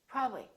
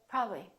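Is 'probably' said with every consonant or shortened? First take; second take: shortened; shortened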